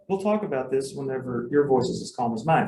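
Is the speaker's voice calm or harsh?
calm. The voice is soft and calm. The parent is inviting a calm talk later. The speaker calls it right. "it only works if you say"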